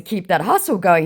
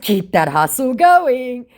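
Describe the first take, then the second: First: Said in the usual way. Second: High, slow mock encouragement on Keep that hustle going; drawn out with fake cheer, stretching going; taunting a scammer in a singsong, high and slow; sarcastic cheer. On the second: Her own sarcastic reply.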